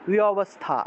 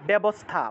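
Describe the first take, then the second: First: The v is a w with lips apart. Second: The v is a b with lips closed. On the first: The speaker calls it right. "এই বয়ের উচ্চারণটা ওয়া উচ্চারণ হবে" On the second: The speaker calls it wrong. "ব ঠিক না"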